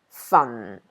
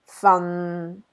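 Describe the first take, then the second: First: It is said with Cantonese tone four. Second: It is said with Cantonese tone six.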